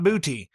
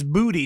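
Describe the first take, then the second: First: The middle consonant sounds like a t. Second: The middle consonant sounds like a d. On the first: The speaker calls it wrong. "not Booty" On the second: The speaker calls it right. "it's Booty"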